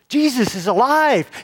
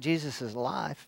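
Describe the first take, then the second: First: It is said with loud, excited energy. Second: It is said flatly and casually, without excitement. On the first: The news is joyful and urgent. The speaker calls it right. "They come running up to those disciples" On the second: The news is treated as unremarkable. The speaker calls it wrong. "they didn't just walk in and say"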